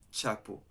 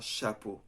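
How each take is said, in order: First: The word begins with a hard 'ch' sound. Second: The word begins with a soft 'sh' sound. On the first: The speaker calls it wrong. "not chapeau" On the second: The speaker calls it right. "in French you say chapeau"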